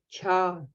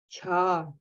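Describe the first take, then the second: The two takes are said the same way.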